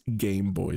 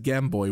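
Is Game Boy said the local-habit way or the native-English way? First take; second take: native-English; local-habit. First: It is said the way native English speakers say it. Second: It is said the way his home country says it. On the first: The speaker calls it right. "it is Game Boy" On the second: The speaker calls it wrong. "I mispronounced uh, Game Boy. I said Game Boy, which is essentially what we called it"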